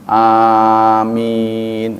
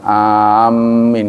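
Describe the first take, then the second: First: The m sound is single, both vowels long. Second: The m sound is doubled and held. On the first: The speaker calls it right. "Amin, harus begitu" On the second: The speaker calls it wrong. "cuma enggak enggak ditasydid, bukan amin, enggak begitu"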